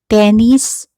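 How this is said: The first vowel is an e sound. "the E sound in the Spanish or in English"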